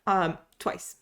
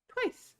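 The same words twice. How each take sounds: First: Said in the usual way. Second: Twice. squeaked up high and soft, stretched in disbelief; a soft, high-pitched Twice for emphasis; squeaky emphatic repeat. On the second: Shown as a demonstration.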